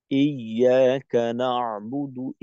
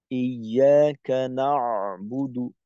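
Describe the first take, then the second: First: ইয়াকা না'বুদু with an easy, natural ain, slow chant. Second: ইয়াকা না'বুদু with the ain pushed hard and slow; overstressed ain. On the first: Teacher shows the correct natural recitation, slow. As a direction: let the ain sit relaxed, no extra push. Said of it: "স্বাভাবিক". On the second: Teacher demonstrates the wrong way, pressing hard. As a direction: show the faulty, overpressed ain. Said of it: "এতটা দেওয়া যাবে না". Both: Shown as a demonstration.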